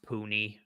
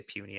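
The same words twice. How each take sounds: First: "Puny" said as POO-nee; "Puny" pronounced like "POO-nee"; correct pronunciation. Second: "Puny" said as PYOO-nee; "Puny" with a y-glide, PYOO-nee; jokey mispronunciation. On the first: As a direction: say "Puny" with a plain oo, no y sound. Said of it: "I know it's pronounced Puny". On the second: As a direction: say "Puny" like the word for tiny. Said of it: "I just say Puny every time". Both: Shown as a demonstration.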